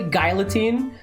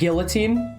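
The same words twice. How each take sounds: First: The word is said to sound like 'Guile's theme'. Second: The word is said the usual American way. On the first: The speaker calls it right. "It's actually guillotine because Guile's theme goes with" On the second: The speaker calls it wrong. "I thought it was pronounced guillotine because I'm American"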